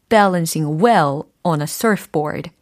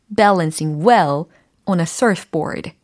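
Both takes have the same delivery.

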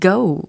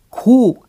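First: It is said with an English 'go' vowel. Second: It is said like the Korean syllable 'go'. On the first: The speaker calls it right. "go 이렇게 처리를 해주시면 더 좋습니다" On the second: The speaker calls it wrong. "고 아니고"

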